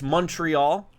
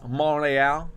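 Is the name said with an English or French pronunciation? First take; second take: English; French. First: It is said with an English pronunciation. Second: It is said with a French pronunciation.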